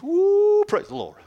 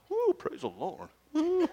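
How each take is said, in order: First: Sharp high woo then praise the Lord; high whoop. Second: High whooping woo, praise the Lord; hip praise whoop. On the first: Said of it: "Get up to the two ones". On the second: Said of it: "do the hip thing". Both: Shown as a demonstration.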